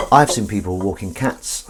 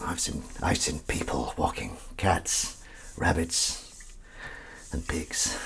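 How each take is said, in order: First: Said in the usual way. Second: Slow, hushed movie-trailer whisper; film trailer voice. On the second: Shown as a demonstration. Telling viewers about pet walks like a film trailer. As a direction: make it sound like a film. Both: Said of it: "I tried to make that sound like a film".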